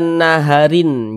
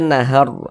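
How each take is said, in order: First: The word ends with an added -in syllable. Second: The word ends on r, with no ending. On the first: The speaker calls it wrong. "Jangan dibaca naharin" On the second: The speaker calls it right. "di sini kita baca nahar"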